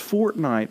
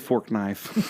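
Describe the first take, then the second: First: It sounds like the words fort and night. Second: It sounds like the words fork and knife. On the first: The speaker calls it right. "no, it's Fortnite" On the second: The speaker calls it wrong. "you're not saying it right"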